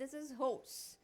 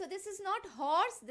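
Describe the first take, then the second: First: Horse with a long open o, softer; correct pronunciation. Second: Put-on horse said the old way, short and flat; wrong pronunciation. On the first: Teacher giving the correct horse. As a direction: model horse with a rounded long o. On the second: Teacher contrasting wrong and right horse. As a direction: say horse the common wrong way, slowly. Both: Shown as a demonstration.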